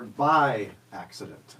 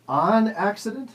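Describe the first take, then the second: First: "by" drawn out, falling tune after it; stress on BY. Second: "on" drawn out and pitched high; stress on ON. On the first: Host repeating the choice, stress on "by". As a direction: slowly lean on "by", then drop. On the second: Host repeating the choice, strong stress on "on". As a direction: slowly punch "on", lifting the pitch. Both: Shown as a demonstration. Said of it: "is it something is".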